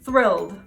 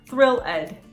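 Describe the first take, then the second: First: The ending -ed is not a separate syllable. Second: The ending -ed is said as its own syllable. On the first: The speaker calls it right. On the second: The speaker calls it wrong.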